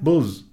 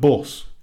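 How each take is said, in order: First: The word ends with a buzzing z sound. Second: The word ends with a hissing s sound. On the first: "My nan, she says buzz" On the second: "instead of bus"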